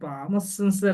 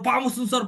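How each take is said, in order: First: It is said calmly, without any fear. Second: It is said with fear, high-pitched. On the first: The speaker calls it wrong. "ఇలా అన్నారు అనుకోండి. ఇలా అంటే ఏమైద్ది?" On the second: The speaker calls it right. "భయంతో చెప్పాలి"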